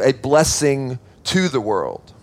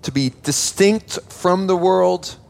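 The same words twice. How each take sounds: First: Slow and settled, falling at the end; slowly stressing a blessing to the world; slow emphatic point. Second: Slow, deliberate, a little higher; slowly stressing distinct from the world; slow emphatic point. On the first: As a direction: let point two land slowly. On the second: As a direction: spell out point one slowly. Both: Shown as a demonstration. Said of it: "We'll break that up into two points".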